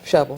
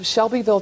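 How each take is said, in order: First: The name is squeezed into two syllables. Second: The name is said fully with three syllables.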